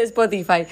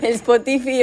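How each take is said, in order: First: Said in the usual way. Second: "Spotify" said as "es-po-TI-fi"; mispronounced Spotify. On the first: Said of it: "en vez de Spotify". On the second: Retold or imitated. Friend quoting a mother's mistake, mispronounced Spotify. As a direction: say "Spotify" with Spanish vowels, ending in "fi". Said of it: "que pronunciaba re mal".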